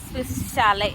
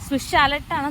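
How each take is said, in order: First: The word ends on a vowel, without t. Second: The word ends with a clear t sound. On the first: This is how local people say it. "ഇവിടെയുള്ളൊരു pronounce ചെയ്യുന്നത്" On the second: This is how the speaker's own community says it. "നമ്മൾ പറയുമ്പോൾ"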